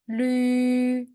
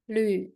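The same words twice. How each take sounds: First: The pitch stays high and level. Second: The pitch dips low, then rises.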